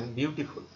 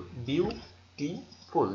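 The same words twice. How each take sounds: First: Said in the usual way. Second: বিউটিফুল drawn out very slowly in three beats; syllable by syllable. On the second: Shown as a demonstration. Teacher showing students three syllables, বিউটিফুল said slowly in parts. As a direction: break বিউটিফুল into three separate, stretched syllables. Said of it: "দেখো আমার উচ্চারণ তিনবার হয়েছে".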